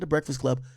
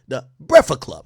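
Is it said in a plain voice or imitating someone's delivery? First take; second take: plain; imitating. First: It is said in a plain, ordinary delivery. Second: It is said imitating another person's delivery. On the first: This is not how the quoted person says it. "not the Breakfast Club" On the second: This copies how the quoted person says it. "because that's how they say it"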